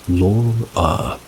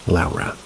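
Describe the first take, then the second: First: The first syllable does not sound like 'Lowry'. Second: The first syllable sounds like the start of 'Lowry'. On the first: It is the speaker's own usual way. "When I say Laura, I pronounce it as Laura" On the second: Someone else used to say it this way. "Think the last name Lowry"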